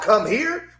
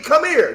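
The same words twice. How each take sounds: First: The two words are said fully and separately. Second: The two words are run together quickly. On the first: This is how outsiders talk. The speaker calls it wrong. "Not come here. We don't talk like them" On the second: This is how the speaker's community talks. The speaker calls it right. "C O M M E R E"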